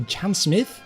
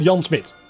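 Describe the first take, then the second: First: The surname ends with an English 'th' sound. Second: The surname ends with a plain 't' sound. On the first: "I suppose the English pronunciation would be" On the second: "he's called Jan Smith, right? Without an H"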